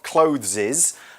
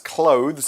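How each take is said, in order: First: The word is said with an extra syllable. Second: The word is said as one syllable. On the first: The speaker calls it wrong. "not clotheses" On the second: The speaker calls it right. "that's clothes"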